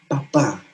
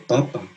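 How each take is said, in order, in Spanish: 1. La sílaba tónica es la última. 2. La sílaba tónica es la primera. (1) "si tú pones un acento en la última letra de la palabra papa, su significado cambia" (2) "lo que nosotros comemos"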